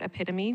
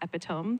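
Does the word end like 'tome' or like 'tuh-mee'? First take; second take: tuh-mee; tome. First: The word ends in a 'tuh-mee' sound. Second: The word ends in a 'tome' sound. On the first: The speaker calls it right. "my embarrassing one was the word epitome" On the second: The speaker calls it wrong. "which I used to think was pronounced epitome"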